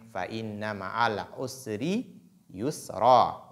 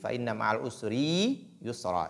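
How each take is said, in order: First: The vowel of 'ri' is kept short. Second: The vowel of 'ri' is drawn out long. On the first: The speaker calls it right. "Il ne faut pas donc prolonger la lettre ra" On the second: The speaker calls it wrong. "il ne faut pas tirer ri ... c'est une erreur"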